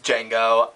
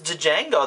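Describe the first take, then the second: First: The D at the start is silent. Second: The D at the start is clearly pronounced. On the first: "Is the D silent? ... But apparently it's Django" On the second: "I always thought it was Django. There's a D there"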